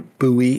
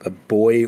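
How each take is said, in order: First: Buoy is said the American way, boo-ee. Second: Buoy is said the British way, like boy.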